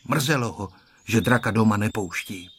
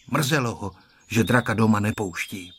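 No difference in how they are said.

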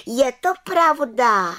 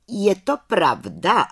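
First: High, loud, drawn-out affirmation; calling out. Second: Slow, raised question on "Je to pravda"; questioning head witch. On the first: Little witch answers head witch, calling out proudly. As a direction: affirm "je to pravda" slowly in a high voice. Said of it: "volala malá čarodějnice". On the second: Head witch questions the little witch, slow and demanding. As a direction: ask "Je to pravda" drawn out, higher, as a question. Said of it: "ptala se vrchní čarodějnice". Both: A narrator's reading.

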